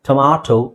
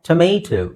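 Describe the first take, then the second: First: The middle vowel is an open 'ah' sound. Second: The middle vowel is an 'ay' sound. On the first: "ಟೊಮಾಟೊ ಅಂತ British ಇಂಗ್ಲೀಷಲ್ಲಿ" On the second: "ಒಂದು American English"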